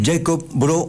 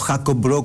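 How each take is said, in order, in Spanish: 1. El nombre se pronuncia al estilo inglés. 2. El nombre se pronuncia al estilo danés.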